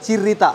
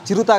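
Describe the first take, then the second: First: The second vowel is an 'i' sound. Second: The second vowel is a 'u' sound. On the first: The speaker calls it right. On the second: The speaker calls it wrong. "చిరుత కాదు"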